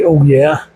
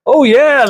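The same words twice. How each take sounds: First: It is said in his normal voice. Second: It is said imitating the Kool-Aid Man.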